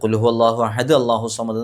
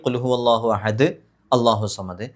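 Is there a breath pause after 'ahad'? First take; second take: no; yes. First: It runs on without a breath after ahad. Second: There is a breath pause after ahad. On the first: The speaker calls it wrong. "ശ്വാസം വിടാതെ ഓതുകയും ചെയ്യരുത്" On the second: The speaker calls it right. "ശ്വാസം വിട്ടിട്ടാണെങ്കിൽ"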